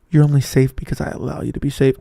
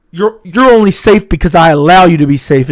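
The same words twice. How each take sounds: First: Said in the usual way. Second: Booming, right up on the mic; loud close-mic menace. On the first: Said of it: "repeat after audio fix". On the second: Pretend. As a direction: blast it close to the mic for the listener. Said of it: "lean up close to the mic and talk loud".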